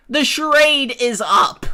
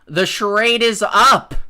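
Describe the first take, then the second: First: Higher, louder, theatrical declaration; louder mock-dramatic repeat. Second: Firm call-out. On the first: Calling out free-speech hypocrites, theatrical high loud declaration. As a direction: proclaim it like a grand reveal. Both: Real, not acted.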